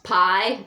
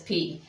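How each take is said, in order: First: It is said the English math way. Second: It is said the Greek way. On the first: "if you've taken um, algebra, most of us have, is pronounced pi" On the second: "but is in the Greek it is P"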